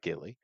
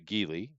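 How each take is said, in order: First: The word is pronounced like 'gilly'. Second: The word is pronounced like 'geely'. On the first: The speaker calls it wrong. "it's not Gilly" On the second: The speaker calls it right. "technically, it is a Geely"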